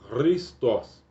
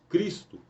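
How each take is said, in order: First: It is said with a final s, as Christos. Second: It is said without a final s, as Cristo. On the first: This is the original Greek name. "no grego, a pronúncia é" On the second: This is the form adapted into Portuguese. "Nós pronunciamos Cristo, porque está transliterado para o português"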